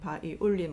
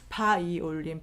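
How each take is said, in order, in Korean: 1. 강세는 세 번째 음절에 있어요. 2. 강세는 첫 번째 음절에 있어요.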